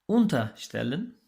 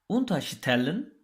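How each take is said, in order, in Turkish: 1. Vurgu unter önekinin üzerine düşer. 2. Vurgu önekten sonraki heceye düşer. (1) "Bunlar ayrılabilen fiillerdi ve kırmızı olarak gösterdiğimiz prefikslerden ayrılıyorlardı" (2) "şeklinde vurgulandığında ise ayrılmayan fiiller olarak karşımıza çıkıyorlardı"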